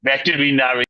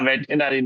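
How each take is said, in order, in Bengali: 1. শব্দটি পাঁচ শব্দাংশে বলা হয়। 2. শব্দটি চার শব্দাংশে বলা হয়। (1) "মাঝখান দিয়ে আর আছে" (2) "না ব্যাটেনারি না রে ভাই"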